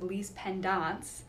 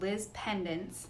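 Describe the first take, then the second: First: It is said in a fancy, refined pronunciation. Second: It is said in a plain, everyday pronunciation. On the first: "if you're fancy, you can pronounce it that way" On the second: "apparently one way to pronounce it"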